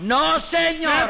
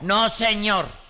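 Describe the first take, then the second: First: It is said loudly with strong emphasis. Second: It is said at a calm, normal loudness.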